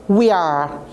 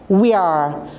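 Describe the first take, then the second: Both takes have the same delivery.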